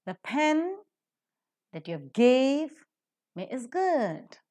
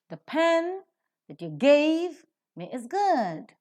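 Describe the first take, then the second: First: Broken into chunks, pen, gave and good each hit high and loud, slowly; teacher dissecting the sentence; stressed word by word. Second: One flowing line, pen and good high and loud, the rest reduced; teacher modelling natural rhythm; fluent stressed reading. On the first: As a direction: lean on pen, gave and good with pauses between. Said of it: "pen, which is a noun, is accented". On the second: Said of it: "The rest are reduced to their weak forms". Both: Shown as a demonstration.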